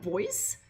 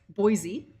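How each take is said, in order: First: Put-on "Boys?" said as the plain word boys; "Boys?" quizzical, as the plain word boys; reading it as boys. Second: Put-on "Boise?" with the city's two syllables, BOY-zee; "Boise?" realizing it is the city; saying Boise. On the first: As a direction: read "Boys?" as one syllable, boys. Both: Shown as a demonstration. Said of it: "boys is Boise".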